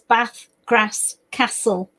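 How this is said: It is said in a northern English accent.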